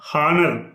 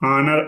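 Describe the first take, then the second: First: The word begins with an h sound. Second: The word begins with a vowel, no h. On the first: The word would take the article a. "ఒకవేళ హానర్ అని కానీ పలికితే" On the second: The word takes the article an. "శబ్దం మాత్రం ఎలా పలకాలంటే ఆ అని పలకాలి"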